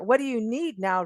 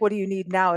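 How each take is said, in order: First: It is said in a gentle, caring tone. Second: It is said in an annoyed, angry tone.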